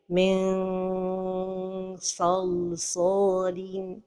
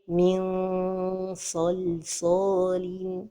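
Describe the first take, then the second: First: The n sounds like a long stretched vowel. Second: The n is lightly hidden with a nasal sound. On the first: The speaker calls it wrong. "trop éloigner la langue du palais... comme si on prononçait un med" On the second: The speaker calls it right. "la prononciation correcte"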